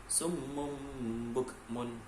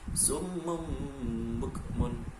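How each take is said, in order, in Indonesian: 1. Kata pertama berakhir dengan bunyi m. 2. Kata pertama berakhir dengan bunyi m.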